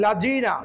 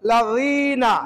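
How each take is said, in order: First: লাজিনা with a plain j; wrong j sound. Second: Tongue tip on the teeth for লাযীনা; correct z sound. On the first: Teacher shows the wrong j in লাজিনা. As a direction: say the mistaken লাজিনা. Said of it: "লাজিনা ভুল". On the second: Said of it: "সঠিকটা হবে". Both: Shown as a demonstration.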